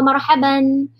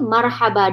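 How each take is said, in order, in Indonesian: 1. Kata itu berakhir dengan bunyi n. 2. Kata itu berakhir dengan vokal panjang. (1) "kalau kita tak nak stop" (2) "kalau kita stop pada kalimah marhaban, dia akan jadi marhaba"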